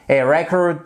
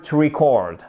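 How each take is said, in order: First: "record" as REC-ord, weight at the front; noun, first-syllable stress. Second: "record" as ri-CORD, weight at the end; verb, second-syllable stress. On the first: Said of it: "l'accentuation non plus sur la première syllabe". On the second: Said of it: "mais sur la deuxième". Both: Shown as a demonstration.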